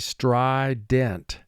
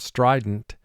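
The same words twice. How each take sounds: First: It is said slowly, every sound exaggerated and clear. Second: It is said casually, with relaxed natural sounds. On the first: This makes each sound clear for spelling. "for spelling, we say" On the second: This is how it sounds in everyday talk. "We would say in conversation"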